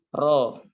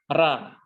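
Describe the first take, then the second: First: The ra is said thick, with a dark vowel. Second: The ra is said thin, with a light vowel. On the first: The speaker calls it right. "dibaca dengan tebal, yaitu dibaca dengan ro" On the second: The speaker calls it wrong. "bukan dibaca ra"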